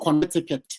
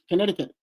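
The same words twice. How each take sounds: First: The word is said slowly, every syllable full. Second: The word is said very quickly, the American way.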